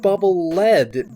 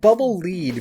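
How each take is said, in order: First: The word lead rhymes with bed. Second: The word lead rhymes with bead. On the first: The bubble is made of a heavy metal. "because it drops down, it has gravity to it. So it's like a bubble made out of lead" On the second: The bubble goes ahead for you to follow. "because you can follow behind it, like it's leading you"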